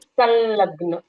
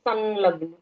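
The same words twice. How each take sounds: First: The first syllable ends in a nasalized l sound. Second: The first syllable ends in a plain nasal. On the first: This is the Sanskrit pronunciation. "Sanskrit में कहते हैं संलग्न" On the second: This is the Hindi pronunciation. "Hindi में कहते हैं संलग्न"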